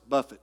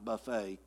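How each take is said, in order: First: The word ends with a short 'it' sound. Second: The word ends with a long 'ay' sound. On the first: The speaker calls it right. "it's buffet, not buffet. It means to constantly punch" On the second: The speaker calls it wrong. "not buffet"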